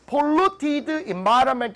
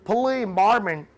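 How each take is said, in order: First: The -ed ending of polluted is clearly pronounced. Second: The -ed ending of polluted is not heard. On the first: "이렇게 들릴까요? 아니죠"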